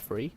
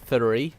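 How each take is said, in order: First: It starts with an F sound. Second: It starts with TH and a rolled R. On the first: "with an F sound rather than a T H sound" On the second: "the R comes out as if it's being rolled"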